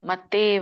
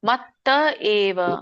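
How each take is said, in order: First: The two words run together into one word. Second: The two words are said as separate words. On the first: The speaker calls it wrong. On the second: The speaker calls it right.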